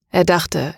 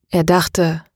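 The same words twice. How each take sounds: First: Er dachte with the weight on Er, falling; Er stressed, dachte falls away. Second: Er dachte with the weight on dachte; stress on dachte. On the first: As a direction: hit the word Er. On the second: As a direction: lean into dachte, not er. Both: A narrator's reading. Narrator repeats phrase, shifts stress.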